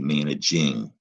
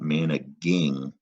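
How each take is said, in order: First: The G is said as a soft G. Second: The G is said as a hard G. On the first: The speaker calls it right. "It's still that soft G" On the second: The speaker calls it wrong. "that is not managing"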